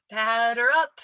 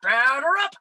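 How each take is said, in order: First: Half-hearted umpire call. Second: Loud, high rising Batter up; cringing at her own attempt; umpire call. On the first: Retold or imitated. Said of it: "not your best umpire voice". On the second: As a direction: belt it like an umpire. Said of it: "I think it was just like".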